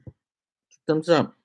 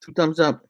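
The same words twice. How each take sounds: First: Drawn out. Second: Said in the usual way. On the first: Shown as a demonstration.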